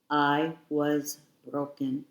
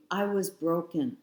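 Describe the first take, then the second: First: Slow, heavy repeat of "I was broken"; drawn-out, weighted "I was broken"; slower repeat. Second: Said in the usual way. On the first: Real, not acted. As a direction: let "I was broken" sink in slowly.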